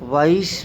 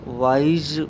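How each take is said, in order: First: The word ends with a hissing s sound. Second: The word ends with a buzzing z sound.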